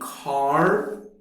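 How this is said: American accent, with the final R pronounced.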